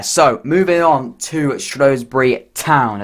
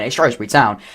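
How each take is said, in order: First: Slow, lightly put-on accent on "Shrewsbury Town"; a bit of an accent. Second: Said in the usual way. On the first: Football vlogger introducing the next club, in a slow, lightly put-on accent. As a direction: drawl "moving on to Shrewsbury Town" in a mild mock accent. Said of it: "I gave a bit of an accent there". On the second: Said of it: "I don't know why I gave a bit of an accent there".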